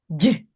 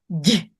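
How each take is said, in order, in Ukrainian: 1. Приголосний м'який, пом'якшений. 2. Приголосний м'який, пом'якшений.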